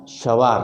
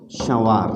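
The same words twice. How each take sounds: First: सवार said with plain oral vowels, no nasal air; clear non-nasal vowel. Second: संवार with a nasal first vowel, air through the nose; nasalized vowel. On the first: Teacher demonstrating सवार to students, oral vowels. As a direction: say सवार with the air only through the mouth. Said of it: "हमने एक शब्द लिखा सवार". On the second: Teacher demonstrating संवार to students, nasal vowel. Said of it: "अगला शब्द लिखते हैं हम". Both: Shown as a demonstration.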